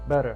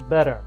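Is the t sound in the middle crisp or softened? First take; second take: softened; softened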